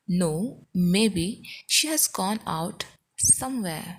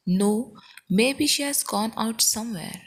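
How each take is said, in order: First: Broken into chunks with clear pauses; slow, careful teaching delivery; slow model repeat. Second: Said in the usual way. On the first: Shown as a demonstration. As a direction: pause after each phrase so learners can repeat.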